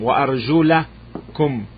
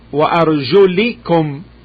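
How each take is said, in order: First: The vowel after the l is a. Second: The vowel after the l is i. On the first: "The movement is a fatha on the lam" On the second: "with kasra"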